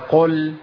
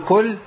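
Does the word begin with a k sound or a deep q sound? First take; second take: deep q; k. First: The word begins with a deep q sound. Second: The word begins with a k sound. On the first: The word means say. The speaker calls it right. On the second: The word means eat. The speaker calls it wrong.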